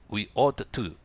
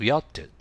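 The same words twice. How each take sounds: First: 'Ought to' is pronounced in full. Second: 'Ought to' is reduced and linked. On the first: The speaker calls it wrong. "逆に言いづらいですよね。" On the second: The speaker calls it right. "言いやすいように発音してみてください。"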